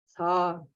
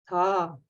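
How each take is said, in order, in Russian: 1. Низкий тон с небольшим придыханием. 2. Низкий тон с небольшим придыханием.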